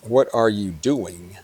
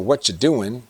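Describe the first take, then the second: First: Every word, including 'are', is clearly said. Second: The word 'are' is left out entirely. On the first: "What you doing is what are you doing?"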